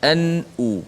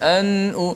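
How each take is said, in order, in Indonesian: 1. Bunyi n dihentikan sepenuhnya dan dengan bersih. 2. Bunyi n tidak dihentikan dengan bersih. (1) "Matikan betul-betul" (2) "tak boleh"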